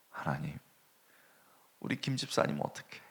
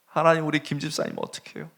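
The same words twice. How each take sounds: First: Soft, hushed tearful plea to God; a softer, muted cry for help; crying prayer. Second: Louder tearful plea, leaning on 하나님; the prayer swells into open weeping; the same plea cried out louder; crying prayer. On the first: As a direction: murmur it like a quiet weeping prayer. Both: Retold or imitated. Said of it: "막 우는 거예요".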